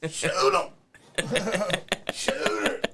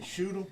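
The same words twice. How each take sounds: First: Very high, loud squealing yell; Weasel voice. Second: Said in the usual way. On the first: Pretend. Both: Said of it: "he said you had to do the Weasel voice".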